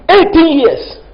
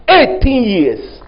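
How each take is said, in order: First: Eighteen years punched higher; punched repeat. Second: Eighteen years, slowly and weighted; slow emphatic repeat. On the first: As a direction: hit Eighteen hard and high. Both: Shown as a demonstration. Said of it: "repeats for emphasis".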